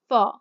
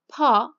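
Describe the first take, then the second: First: The syllable begins with an f sound. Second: The syllable begins with an aspirated p. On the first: This is how the general public says it. "but people say fa" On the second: This is the standard pronunciation. "we have pa"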